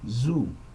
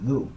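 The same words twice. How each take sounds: First: The first sound is a plain buzzing z. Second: The tongue touches behind the upper teeth. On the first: The speaker calls it wrong. "utilized with a Z" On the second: The speaker calls it right. "The tongue actually goes to the back of the upper teeth"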